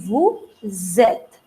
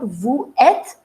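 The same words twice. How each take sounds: First: The s of vous links as z into êtes. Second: The s of vous is silent before êtes. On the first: The speaker calls it right. "it would be vous êtes" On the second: The speaker calls it wrong. "it is not vous êtes"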